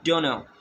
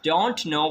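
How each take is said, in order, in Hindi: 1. दोनों शब्द मिलकर एक शब्द की तरह बोले जाते हैं। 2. दोनों शब्द अलग-अलग और पूरे बोले जाते हैं। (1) "we speak all together" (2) "Instead of speaking"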